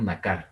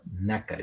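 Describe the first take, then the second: First: Nacar said as na-CAR; wrong final stress. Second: Nácar said as NÁ-car; correct penultimate stress. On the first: Teacher showing how not to say it, stress on last syllable. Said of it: "No decimos nacar". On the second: Teacher showing the right word, stress on first syllable. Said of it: "decimos nácar". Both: Shown as a demonstration.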